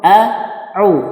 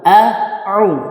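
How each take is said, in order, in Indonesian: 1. Konsonan kedua adalah bunyi tenggorokan yang dalam. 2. Konsonan kedua adalah bunyi tenggorokan yang dalam.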